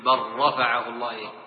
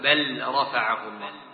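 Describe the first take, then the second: First: The L merges fully into the following R. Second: The L is pronounced separately before the R. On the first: The speaker calls it right. "تقول بل رفعه الله ... إدغام كامل" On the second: The speaker calls it wrong. "ولا تقول بل رفعه الله"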